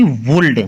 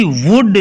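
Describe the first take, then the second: First: "वुल्ड" with an audible l before the d; wrongly sounded L. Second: "वुड" going straight from vowel to d; silent L. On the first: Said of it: "ना कि". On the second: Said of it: "ना कि वुल्ड". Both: Shown as a demonstration.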